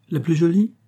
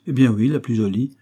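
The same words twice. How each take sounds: First: Incredulous rising question, pitched higher; surprised echo. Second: Said in the usual way. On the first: Acted. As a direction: throw "La plus jolie?" back in disbelief, voice climbing. ("La plus jolie?" répété, étonné, la voix montant plus haut) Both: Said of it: "répliqua le jeune homme".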